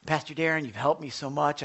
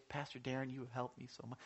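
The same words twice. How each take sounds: First: Said in the usual way. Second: Much softer, hushed thanks; quietly imitating a grateful member; soft grateful quote. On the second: Church member thanking Pastor Darren, hushed and soft.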